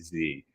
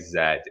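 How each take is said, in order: First: The letter is said as American 'zee'. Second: The letter is said as British 'zed'.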